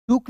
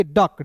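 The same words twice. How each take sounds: First: "डुक" with a short u vowel; wrong reading. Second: "डक" with a short uh vowel; correct reading. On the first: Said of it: "डुक नहीं पढ़ेंगे". ("डुक", उ स्वर वाला गलत उच्चारण) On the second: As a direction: say DUCK as "डक", no u sound. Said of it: "इसे पढ़ेंगे डक". ("डक", अ स्वर वाला सही उच्चारण) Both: Shown as a demonstration.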